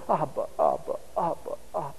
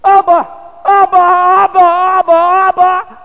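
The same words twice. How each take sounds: First: Put-on soft, low child's murmur; hushed, acted clinging toddler; murmured in father's ear. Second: Loud, high-pitched panicked scream for Daddy; acted terror, very high and loud; terrified child's cry. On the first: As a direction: say it softly, close into Daddy's ear. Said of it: "little mouth right in the ear of his father". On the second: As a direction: scream it out like an abandoned toddler. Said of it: "And he's terrified. He goes".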